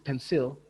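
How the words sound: It is said with Indonesian word stress. "but in Indonesian, it's pensil"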